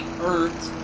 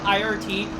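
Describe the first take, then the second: First: The name is said as a single word. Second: The name is spelled out letter by letter. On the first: The speaker calls it wrong. "pronounced it as if it were an actual word" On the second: The speaker calls it right. "I think the correct pronunciation is I R T"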